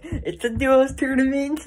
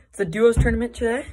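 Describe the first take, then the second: First: Higher, louder hyped pro gamer; slow, puffed-up esports pro announcement; Fortnite pro voice. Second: Said in the usual way. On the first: Retold or imitated. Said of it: "like, professional saying that". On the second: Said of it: "I swear I feel like a freaking Fortnite player".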